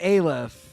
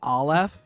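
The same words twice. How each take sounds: First: The word does not sound like 'olive'. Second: The word sounds like 'olive'. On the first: This is how the speaker has always said it. "I have always said Aleph" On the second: This is how others on the show say it. "They all say Aleph"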